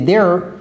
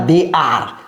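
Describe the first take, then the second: First: The words are contracted and linked together. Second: The words are said fully and separately. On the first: The speaker calls it right. "c'est they're a werewolf" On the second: The speaker calls it wrong. "c'est pas they are"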